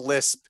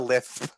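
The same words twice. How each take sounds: First: The s is pronounced as a clear hiss. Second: The s is pronounced with a lisp. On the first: "you don't have a lisp" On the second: "you have a lisp"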